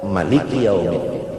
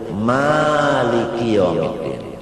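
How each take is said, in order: First: The first vowel of Maliki is short. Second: The first vowel of Maliki is long. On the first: This is the Ibnu Katsir reading. "kada ba'alif" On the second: This is the Hafs reading. "qiraat Hafs sa'alif"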